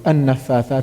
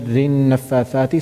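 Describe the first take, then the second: First: It begins with an audible initial 'a' vowel. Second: It links straight on with no initial vowel. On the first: The recitation starts with this word. "I want to go back like a word and then continue" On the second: The recitation continues from earlier in the verse. "so I didn't pronounce it because I wasn't starting with it"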